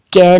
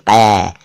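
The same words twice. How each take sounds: First: "कै" with an ordinary front "k"; plain K. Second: "कै" with a throaty "q", as "qai"; dotted Q. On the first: Teacher showing what it is not, "कै" with plain k. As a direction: say "कै" as "kai", tongue not pulled back. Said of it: "कै नहीं". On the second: Teacher pointing out the dot, "कै" said as "qai". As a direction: pull the k of "कै" back to the uvula. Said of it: "क के नीचे बिंदु है देखिए". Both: Shown as a demonstration.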